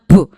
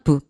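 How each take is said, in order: First: The consonant is released with a strong burst. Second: The consonant is released softly and plainly. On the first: "인위적으로 제가 좀 더 강조해서 말씀드리면" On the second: "그냥 부"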